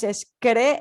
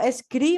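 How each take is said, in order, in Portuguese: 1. A sílaba é falada com a vogal 'e'. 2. A sílaba é falada com a vogal 'i'. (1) "mas escre" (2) "não escri"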